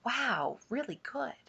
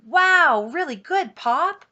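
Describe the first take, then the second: First: Soft, offhand praise; passing admiration. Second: High, loud, wide-eyed wow; big burst of admiration; enthralled kid. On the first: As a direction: toss it off quietly like a passerby. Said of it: "people passing on Dump Road". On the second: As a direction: gush like an awestruck child. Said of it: "always enjoyed my father's stories". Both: A narrator's reading.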